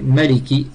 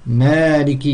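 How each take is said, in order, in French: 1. La première voyelle n'est pas allongée. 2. La première voyelle est allongée.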